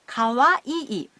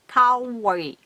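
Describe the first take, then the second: First: Each syllable takes the same length of time. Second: The syllables take unequal lengths of time. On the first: The speaker calls it right. "Pronounce each syllable in the same length of time" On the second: The speaker calls it wrong. "not kawaii"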